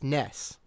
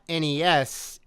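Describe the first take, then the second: First: It is said as a single word. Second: It is spelled out letter by letter. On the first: The speaker calls it right. "They spell out phonetically uh, Nesu" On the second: The speaker calls it wrong. "it's not N E S"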